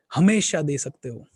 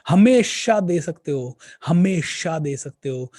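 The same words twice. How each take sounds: First: Said in the usual way. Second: हमेशा hit louder, each word slow and weighted; emphatic repeat. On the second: Shown as a demonstration. Speaker urging his audience, stressing हमेशा slowly and loudly. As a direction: drive home हमेशा with a slow, loud insistence.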